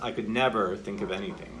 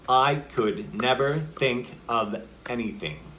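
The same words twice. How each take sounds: First: The word never is pushed into. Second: Every word gets equal emphasis.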